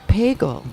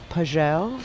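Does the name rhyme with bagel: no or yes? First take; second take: yes; no. First: The name rhymes with bagel. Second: The name does not rhyme with bagel. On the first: The speaker calls it right. "like bagel. It's just Pagel" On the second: The speaker calls it wrong. "It is not Pagel"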